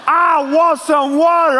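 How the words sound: It is said in a demanding, bossy tone.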